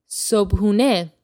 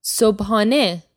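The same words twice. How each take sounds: First: "sobhune" with an "oo" in the middle; usual pronunciation. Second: "Sobhane" with an "ah" in the middle; alternative pronunciation. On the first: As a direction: say "sobhune" as sobh-oo-neh. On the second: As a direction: say "Sobhane" as sobh-ah-neh. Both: Shown as a demonstration. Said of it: "You'll also hear this pronounced sobhane".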